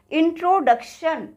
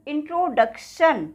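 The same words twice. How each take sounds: The two takes are said the same way.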